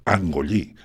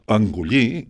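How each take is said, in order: First: The first vowel is a clear, open A. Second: The first vowel is less open and reduced. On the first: This is how the local people say it. "nosaltres engollir" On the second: This is how a speaker from Tarragona says it. "diria un tarragoní"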